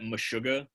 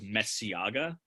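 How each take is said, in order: First: The name has a 'sh' sound in the middle. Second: The name has an 's' sound in the middle. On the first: The speaker calls it right. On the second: The speaker calls it wrong.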